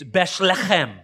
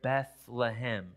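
First: The word has a harsh guttural throat sound. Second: The word is said smoothly without throat sounds. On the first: This is how it is said in Aramaic or Hebrew. "It's Beshlechem. ... I'm emphasizing and embellishing it just a little" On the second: This is the Western English way of saying it. "Very smooth, very Bethlehem"

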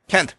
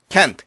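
No difference in how they are said.

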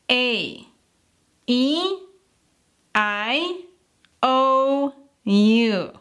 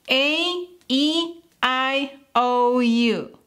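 First: The vowels are said faster. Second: The vowels are said very fast.

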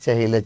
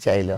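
First: An h sound is kept in the middle. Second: The h sound in the middle is dropped.

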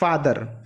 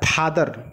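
First: It begins with an f, lips not closing. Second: It begins with a puffed p, lips pressed together. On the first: The speaker calls it right. "बिना इसको सटाए बोलिए फादर" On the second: The speaker calls it wrong. "तो फादर नहीं होता है"

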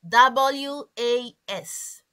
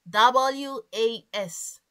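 Both takes have the same delivery.

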